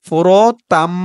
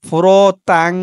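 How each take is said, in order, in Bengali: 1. শব্দটি m ধ্বনি দিয়ে শেষ হয়। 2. শব্দটি ng ধ্বনি দিয়ে শেষ হয়। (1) "উচ্চারণটা হবে ফুরতাম" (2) "এখানে আমি প্রথমে বলেছিলাম ফুরতাং, উচ্চারণটা তাং হবে না"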